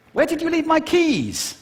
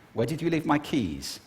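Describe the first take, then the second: First: Very high, louder, agitated question; high-pitched arousal. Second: Said in the usual way. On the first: Shown as a demonstration. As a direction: send the pitch soaring on the question. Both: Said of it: "do it just with pitch".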